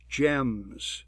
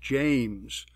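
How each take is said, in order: First: The name is pronounced in a distorted way. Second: The name is pronounced in the standard way. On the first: This is how the speech synthesizer said it. The speaker calls it wrong. "she says, my name is James" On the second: This is how the name should sound. The speaker calls it right. "instead of James"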